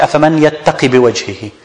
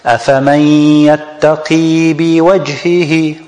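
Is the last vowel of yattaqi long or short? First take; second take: short; long. First: The last vowel of yattaqi is cut short. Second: The last vowel of yattaqi is held long. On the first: The speaker calls it wrong. "We don't say" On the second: The speaker calls it right. "has to be extended for 2 harakat"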